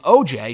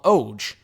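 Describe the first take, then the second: First: The name is spoken as two separate letters. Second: The name is spoken as a single word. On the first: The initials are used. "his initials were O J. So instead of calling him O J" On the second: A nickname is used. "she would call him Oj"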